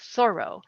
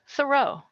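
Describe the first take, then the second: First: The stress is on the first syllable. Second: The stress is on the last syllable. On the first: The speaker calls it right. "with the accent on the first syllable, like thorough" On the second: The speaker calls it wrong. "with the accent on the last syllable, the way I've been saying it here all along"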